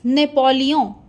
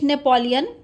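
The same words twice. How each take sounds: First: The name is said with French nasal vowel. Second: The name is said with English sounds. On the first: "but in French it is Napoleon" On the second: "In English we used to say it Napoleon"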